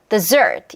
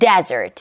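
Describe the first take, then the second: First: The stress is on the second syllable. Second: The stress is on the first syllable. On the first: It means a sweet course after a meal. "the da 요 리듬에 맞추면 dessert" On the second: It means a dry sandy region. "data 요 리듬에 맞추면 desert"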